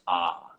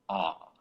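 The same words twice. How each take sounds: First: The vowel sounds brighter with a relaxed throat. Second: The vowel sounds darker with an open throat.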